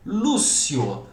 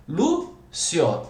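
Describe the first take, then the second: First: Said in the usual way. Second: "Lúcio" with a pause after stressed LÚ; split into syllables. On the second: Shown as a demonstration. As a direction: break "Lúcio" into Lú, then cio. ("Lúcio" separado em Lú e cio) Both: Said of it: "outra paroxítona terminada em ditongo".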